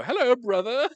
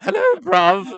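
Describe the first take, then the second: First: High, louder, prim hello brother; hammed-up formal greeting; overly proper greeting. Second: High loud laughing London hello bruv; laughing mock London greeting; mock London accent. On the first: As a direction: greet like a stiff proper Brit. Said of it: "I would go". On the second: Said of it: "bruv is London".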